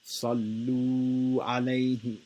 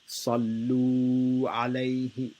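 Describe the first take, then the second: First: The vowel in 'lu' is held for two beats. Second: The vowel in 'lu' is held for two beats.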